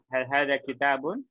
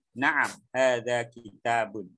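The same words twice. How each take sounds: First: "Hal hada kitabun" asked with a rising ending; question tune. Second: Slow "Naam, hada kitabun" falling at the end; answering statement. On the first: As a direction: lift the end of "kitabun". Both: Shown as a demonstration. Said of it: "Misalkan saya tanya".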